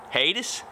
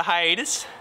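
First: HIATUS said HAY-tis, questioning. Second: HIATUS said high-AY-tus; hiatus, opening on a clear "high"; hiatus with long I. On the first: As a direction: try hiatus in two syllables, hay-tis, unsure. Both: Shown as a demonstration. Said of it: "However you say it".

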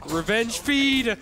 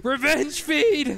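First: Slow, loud, high shout of revenge; drawn-out battle cry. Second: Very slow, higher and louder shout; higher drawn-out battle cry. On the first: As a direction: stretch the words out like a war cry. Gleeful battle cry in game. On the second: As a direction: push the war cry up even higher. Repeats battle cry, even higher. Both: Acted.

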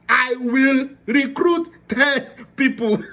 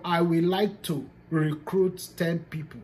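First: Higher, louder, slow and firm; "I will recruit ten people" with a firm, emphatic "will". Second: Said in the usual way. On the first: Shown as a demonstration. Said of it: "that will is a command".

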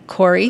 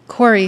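First: The name with a nudging rise at the end; prodding. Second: Calls the name out bright and louder, falling; a burst of eager news in one word; excited. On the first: Betsy nudges Corrie to give thanks, prodding. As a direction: coax her to speak up. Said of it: "she prodded". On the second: Betsy calls her sister with excitement. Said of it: "answered excitedly". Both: A narrator's reading.

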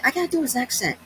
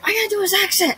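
First: Said in the usual way. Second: High, loud excited declaration; high excited outburst; excited cry. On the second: Real, not acted. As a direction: blurt it out thrilled.

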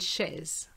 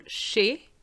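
First: Chaise as 'shez', final z heard; sounded Z. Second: Chez as 'shay', ending on the vowel; silent Z. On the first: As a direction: add a buzzing z to end chaise. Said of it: "not to pronounce the Z". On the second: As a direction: leave the z off chez. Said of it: "So be careful". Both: Shown as a demonstration.

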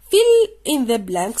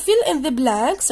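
First: Very slow and louder, each word apart; slow instruction read. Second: Slow, louder, words apart; slow instruction read. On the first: Teacher reading the exercise instruction, very slow and louder. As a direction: spell out the instruction slowly. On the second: Teacher repeating the exercise instruction, slow and louder. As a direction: read it out slowly again for pupils. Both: Shown as a demonstration. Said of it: "reading instruction".

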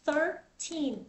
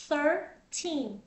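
Both takes have the same delivery.

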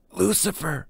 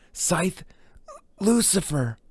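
First: A high gasped name. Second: High, full-voiced cry of the title; full title forced out. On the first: Acted. Brahms forced to say the name, gasped high. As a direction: force the name out on a gasp, pitched up. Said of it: "he gasped". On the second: Brahms forced to say the title, crying it out high. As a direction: blurt the whole title out, pitched up.

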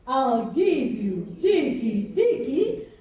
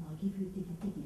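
First: Slow, loud, stretched-out roar; lion roar. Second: Said in the usual way. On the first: Shown as a demonstration. Storyteller shows audience Lion's threat, slow loud roar. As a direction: roar each word out slowly like a lion. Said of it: "like a lion". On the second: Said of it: "let's say it again".

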